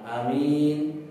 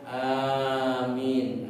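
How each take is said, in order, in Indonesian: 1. Vokal pertama dibaca pendek. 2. Vokal pertama dibaca panjang. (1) "imamnya cuma amin" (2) "sementara makmumnya amin"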